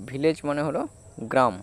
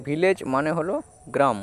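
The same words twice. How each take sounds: The two takes are said the same way.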